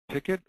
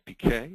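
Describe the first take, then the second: First: The name is said the Australian English way. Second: The name is said the French way.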